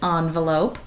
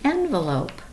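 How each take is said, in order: First: The word begins with an 'on' sound. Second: The word begins with an 'en' sound. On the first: The speaker calls it wrong. "I have often said envelope" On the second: The speaker calls it right. "it is really envelope ... it's still N at the beginning, not on"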